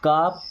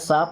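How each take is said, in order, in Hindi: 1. यह k से शुरू होता है और लंबे 'aa' स्वर के साथ। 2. यह s से शुरू होता है और लंबे 'aa' स्वर के साथ। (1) "इसे काप या साप नहीं पढ़ते हैं" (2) "इसे काप या साप नहीं पढ़ते हैं"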